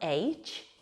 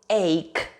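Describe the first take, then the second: First: It sounds like the letter H, ending in ch. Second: It sounds like 'ake', ending in a k sound. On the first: The speaker calls it wrong. "it's not H" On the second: The speaker calls it right. "it is ache"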